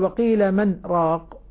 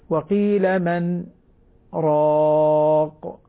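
First: The pause after 'man' is rushed and barely there. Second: The pause after 'man' is short and light. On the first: The speaker calls it wrong. "هذه سريعة" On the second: The speaker calls it right. "الصواب يعني سكتة لطيفة خفيفة"

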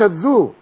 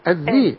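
First: The first syllable has a 'u' vowel. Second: The first syllable has an 'i' vowel. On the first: The speaker calls it wrong. "مش الذو" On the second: The speaker calls it right. "الذي الذلة"

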